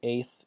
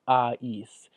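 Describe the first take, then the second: First: The vowel is one single sound. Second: The vowel glides through two sounds together. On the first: The speaker calls it wrong. "You don't say ace" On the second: The speaker calls it right. "you say both vowels ... but you run it together"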